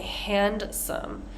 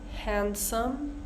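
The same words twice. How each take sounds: First: A D sound is heard in the middle. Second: No D sound is heard in the middle. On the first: The speaker calls it wrong. "we don't say handsome" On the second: The speaker calls it right. "That D is kind of ignored"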